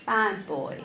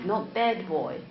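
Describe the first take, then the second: First: "bad" with an open "a" as in cat; vowel in BAD. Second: "bad" said like "bed"; wrong vowel demo. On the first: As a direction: say "bad boy" with a wide "a" in "bad". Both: Shown as a demonstration. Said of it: "for example, bed or bad".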